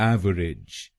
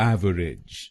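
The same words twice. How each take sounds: Both takes have the same delivery.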